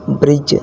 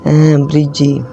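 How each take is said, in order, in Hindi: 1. शब्द अंतिम व्यंजन ध्वनि पर खत्म होता है। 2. अंतिम व्यंजन के बाद एक अतिरिक्त स्वर ध्वनि आती है। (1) "आगे ब्रिज" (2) "ना कि ब्रिजी"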